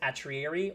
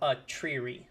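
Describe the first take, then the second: First: The name is said with four syllables. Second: The name is said with three syllables. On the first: "Like four syllables" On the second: "Three syllables"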